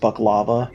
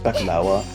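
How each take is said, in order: First: The middle consonant is a v sound. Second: The middle consonant is a w sound. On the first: This is how Americans say it. "the American way of saying it is baklava" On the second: This is how Arabic speakers say it. "we don't have a V in Arabic, so it's just baklawa"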